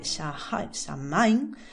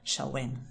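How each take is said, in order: First: It is read aloud just as it is spelled. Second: It is said differently from how it is spelled. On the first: "se escribe Samhain" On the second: "pero se pronuncia más o menos Samhain"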